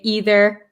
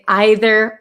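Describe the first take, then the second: First: It is said with an American pronunciation. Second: It is said with a British pronunciation. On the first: "I'm from America, so I say either" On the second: "British people... say either"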